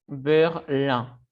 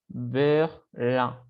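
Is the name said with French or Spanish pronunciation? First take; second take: French; French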